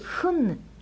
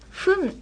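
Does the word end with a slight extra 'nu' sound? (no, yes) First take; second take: yes; no. First: The word ends with a slight added 'nu' sound. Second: The word ends plainly, with no extra sound. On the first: The speaker calls it right. "ちょっとんぬって 語尾に少しだけかけるんですね" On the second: The speaker calls it wrong. "ふんではなく"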